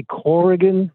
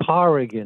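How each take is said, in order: First: Corrigan said with a rounded "core" at the start; Corrigan, first syllable like the word core; common mispronunciation. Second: Corrigan said with an open "car" at the start; Corrigan, first syllable rhyming with car; correct pronunciation. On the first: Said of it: "some people say Corrigan". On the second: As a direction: say Corrigan as CAR-ih-gan, not CORE. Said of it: "but it is Corrigan". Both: Shown as a demonstration.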